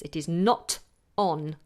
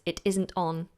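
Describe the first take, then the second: First: Each word is articulated fully and separately. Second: The words 'is not' are contracted together. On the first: "we want to articulate our words" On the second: "You could con- contract it"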